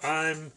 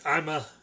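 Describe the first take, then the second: First: It is said plainly with no added vowel. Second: An extra vowel is added after the word. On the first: "Instead of I'm" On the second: "he'd go like I'm a"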